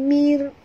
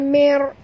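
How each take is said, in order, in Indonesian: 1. Bunyi r dibaca tipis dan ringan. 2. Bunyi r dibaca tebal dan berat. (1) "Kena baca tipis" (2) "bukan mer"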